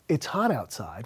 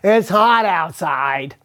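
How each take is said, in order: First: It is said in a flat, neutral tone. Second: It is said in an annoyed, complaining tone.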